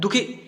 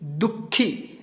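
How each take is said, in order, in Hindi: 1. अंतिम स्वर छोटा काटकर बोला जाता है। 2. अंतिम स्वर लंबा खींचा जाता है। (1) "दुखी ऐसे करेंगे तो समझ में नहीं आएगा" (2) "दुखी ऐसे पढ़ेंगे, खी थोड़ा सा लंबा उच्चारण हो रहा है"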